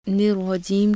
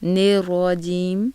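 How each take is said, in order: First: The vowel after n is a pure short i. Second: The vowel after n sounds like a long e. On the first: The speaker calls it right. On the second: The speaker calls it wrong.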